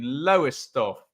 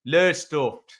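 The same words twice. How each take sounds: First: Said in the usual way. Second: Badly done Lowestoft local accent; a rough stab at the Lowestoft accent. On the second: Shown as a demonstration. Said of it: "as they say it there".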